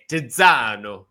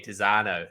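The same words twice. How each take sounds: First: The name is said with an Italian-style accent. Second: The name is said with a plain English accent. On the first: The speaker calls it right. "No one's gone eh" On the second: The speaker calls it wrong. "they go, oh yeah"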